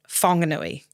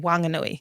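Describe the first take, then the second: First: The opening H sound is hard. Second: The opening H sound is soft. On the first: This is how people in the north say it. "which is the more the harder H from from the northern parts" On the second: This is how the local iwi say it. "they pronounce it with a soft H"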